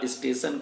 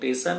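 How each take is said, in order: First: The word begins with an s sound. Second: The word begins directly with a t sound. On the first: This is the standard form of the word. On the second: The speaker's mother tongue shapes the word.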